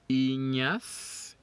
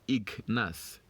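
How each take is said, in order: First: The gn is said as one ny sound. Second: The gn is said as a hard g plus n. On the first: The speaker calls it right. "we don't get the G when we pronounce the G N" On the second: The speaker calls it wrong. "not Ignas"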